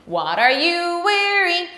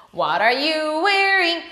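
Both takes have the same delivery.

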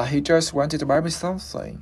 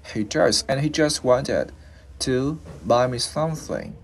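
First: Whole sentence glided through without a break, pitched higher; smooth and linked. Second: "he just wanted to buy me something" built up in pieces; broken into chunks. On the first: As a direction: run "just wanted" together smoothly in one go. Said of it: "cho nóượt mà". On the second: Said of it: "để mà mình lướt cái chữ S". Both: Shown as a demonstration.

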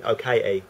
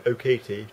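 First: Cockney accent, Katie said as Kai-ie with a glottal stop for the t; casual cockney London greeting. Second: Crisp posh English accent, vowels rounded and careful; refined posh English greeting. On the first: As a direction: drop into a broad London cockney. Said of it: "to going". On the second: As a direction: say it like an upper-class English lady, Katie with a clear t. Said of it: "go from speaking very posh to". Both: Shown as a demonstration.

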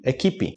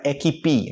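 First: EQUIPE stressed on KI, ending pi; final E as I. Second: EQUIPE with stress on the last syllable, e-ki-PI; wrongly stressed ending. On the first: Teacher shows the spoken form, "Equipe" with light final pi. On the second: Teacher warns learners with mistaken "equipe", stressed on final pi. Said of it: "Cuidado que não é equipe". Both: Shown as a demonstration.

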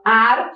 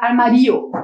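First: "arma" broken in two, long strong MA; stronger syllable. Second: "armário" wrongly stressed on RI, as ar-ma-RI-o; misplaced stress. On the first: Teacher showing where the accent falls, stronger syllable. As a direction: lean on the second syllable of "arma". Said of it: "pra sílaba ficar mais forte". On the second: Teacher showing the word without its accent, misplaced stress on "armário". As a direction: move the stress of "armário" onto the i. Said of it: "senão ia ficar armário". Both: Shown as a demonstration.

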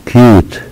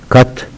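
First: كيوت with long "yoo", like "cute"; long u name sound. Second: كت brief, with "uh", like "cut"; short u. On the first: Teacher summing up the rule, long u. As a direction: say كيوت using the letter's name. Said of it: "تنتهي بحرف الإي ننطق". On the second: Teacher summing up the rule, short u. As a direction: say كت using the letter's sound. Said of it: "ننطق صوتها". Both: Shown as a demonstration.

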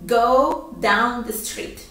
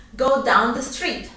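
First: Patient slow repetition; slow teacher model; slow model phrase. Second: Said in the usual way. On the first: Shown as a demonstration. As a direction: Go down the street slow and clear. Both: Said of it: "Yo voy a decir".

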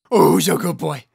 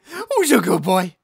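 First: Squeaky praising a dog. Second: Higher squeaky pet talk; squeaky praising a dog. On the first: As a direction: coo at a good dog. Praising the pet. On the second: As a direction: gush over the dog. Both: Acted.

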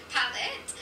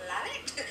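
First: Palette said through a laugh. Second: Said in the usual way. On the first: Real, not acted. Giggling while saying the palette name again. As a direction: laugh as you repeat palette.

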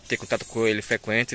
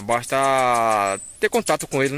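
First: Said in the usual way. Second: Slow and louder, leaning hard on ter contato; emphatic advice. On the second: Shown as a demonstration. Vlogger hammering home his taming tip to followers, slow and emphatic. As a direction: stress "basta ter contato com ele", drawn out with weight on "ter". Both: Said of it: "É assim, galera, que eu falo".

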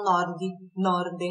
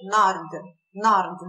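First: "nord" said as "norde", with a vowel after D; added final vowel. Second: "nord" ending right on the D; final bare D. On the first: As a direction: say "nord" Brazilian-style as "nórdi". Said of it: "não tentam colocar o". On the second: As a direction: say "nord" with no vowel after the D. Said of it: "Termina com D". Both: Shown as a demonstration.

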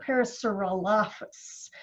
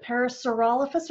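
First: Parasaurolophus said pa-ra-saur-o-LOH-phus; stress on the -loph- syllable. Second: Parasaurolophus said pa-ra-saur-OL-o-phus; stress on the -rol- syllable. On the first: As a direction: lean on LOH, second-last syllable of Parasaurolophus. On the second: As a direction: punch OL in Parasaurolophus, short o. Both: Shown as a demonstration. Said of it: "which emphasis goes on which syllable".

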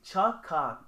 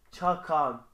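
First: "Çakan" said with a long drawn a, as if written with two a's; "Çakan" with the a stretched to mark the double letter; corrected name. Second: "Çakan" said with a short plain a; "Çakan" read quickly with one short a, the wrong way; mispronounced name. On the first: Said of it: "İki A ile". ("Çakan" uzatılmış a ile, iki a'lı düzeltilmiş okunuş) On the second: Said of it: "Pardon, Çakan değil". ("Çakan" kısa a ile, yanlış okunuş) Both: Shown as a demonstration.

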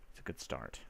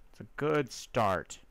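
First: Whispered aside. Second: Said in the usual way. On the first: Real, not acted. Whispered then repeated.

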